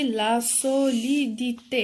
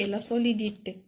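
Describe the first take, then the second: First: "لا سوليديتي" in slow, separated syllables; each syllable of "لا سوليديتي" drawn out; syllable-by-syllable sounding out. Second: Said in the usual way. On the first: Shown as a demonstration. Sounds out the new noun.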